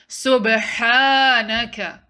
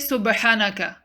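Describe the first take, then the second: First: The ha syllable is held for two counts. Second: The ha syllable is short. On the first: The speaker calls it right. "Prolong your ha to two counts" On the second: The speaker calls it wrong. "Don't say"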